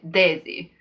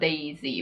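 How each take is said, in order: First: The middle consonant is a buzzing Z sound. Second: The middle consonant is a hissing S sound. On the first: The speaker calls it right. "like Z as a Z" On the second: The speaker calls it wrong. "not as an S, not Daisy"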